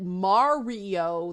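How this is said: The name is said with an Italian-style pronunciation. It could seem to mock the family's accent. "making fun of their parents' accent"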